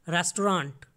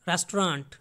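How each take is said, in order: Both takes have the same delivery.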